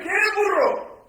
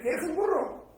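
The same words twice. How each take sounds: First: "¿Quieres burro?" said high, loud and slow, leaving out "un". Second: Said in the usual way. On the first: Shown as a demonstration. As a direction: stretch it out without the article. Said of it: "No es lo mismo decir". ("¿Quieres burro?" alto, fuerte y lento, sin "un") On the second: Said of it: "que decir".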